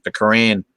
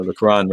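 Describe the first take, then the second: First: Quran said "kuh-RAN", rhyming with "can"; flat-A pronunciation. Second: Quran said "kuh-RAHN"; open-A pronunciation. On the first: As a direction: say Quran with the vowel of "cat". Repeats word, then self-corrects pronunciation. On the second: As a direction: say Quran with the vowel of "father". Corrects the vowel of Quran. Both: Real, not acted.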